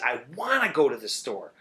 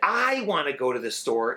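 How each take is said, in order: First: The stress is on the word wanna. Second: The stress is on the word I.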